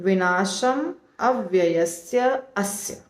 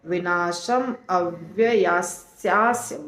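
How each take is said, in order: First: The last words are said as separate words. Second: The last words are merged into one long word. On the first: "अलग अलग बोलेंगे।" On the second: "बहुत difficult है बोलना।"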